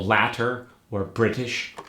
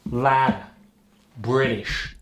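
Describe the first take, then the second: First: Said in the usual way. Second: New York "Briddish", D in place of T; D replaces T. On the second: Shown as a demonstration. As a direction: tap the T in "British" into a D. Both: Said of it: "D replaces the T".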